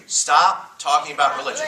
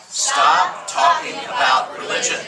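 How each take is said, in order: First: Said in the usual way. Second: Shouted high and slow, leading the crowd; loud call-out. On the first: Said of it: "All right, say it with me". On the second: Shown as a demonstration. Preacher shouting for the crowd to repeat. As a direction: belt it out for the room to echo. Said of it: "Here we go".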